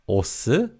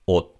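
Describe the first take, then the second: First: The word ends with an audible s sound. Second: The word ends without any s sound. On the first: The speaker calls it wrong. "this word has a 시옷 받침, but it's not pronounced as 옷" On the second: The speaker calls it right. "but 옷"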